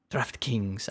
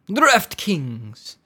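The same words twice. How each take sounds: First: Said in the usual way. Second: DraftKings said higher in a put-on fancy accent. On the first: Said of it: "in a fancy accent every time". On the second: Shown as a demonstration. Podcast host naming his sponsor, in a fancy accent. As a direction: give DraftKings a grand, fancy-accent flourish. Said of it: "I wanna say that, like, in a fancy accent every time".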